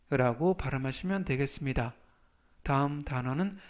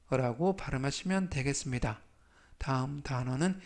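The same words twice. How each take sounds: The two takes are said the same way.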